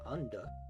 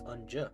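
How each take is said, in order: First: The middle consonant is a plain 'd' sound. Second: The middle consonant is a 'j' sound. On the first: The speaker calls it wrong. "it's not unda" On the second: The speaker calls it right. "it's unja"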